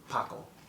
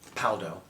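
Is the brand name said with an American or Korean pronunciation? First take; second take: Korean; American. First: It is said with a Korean pronunciation. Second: It is said with an American English pronunciation. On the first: "But in Korea, I've heard them say it, it's like Paco" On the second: "That's how the Americans"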